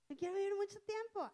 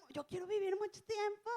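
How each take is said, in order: First: Said in the usual way. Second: 1 imitating a hopeful believer. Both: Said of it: "Que dicen uno".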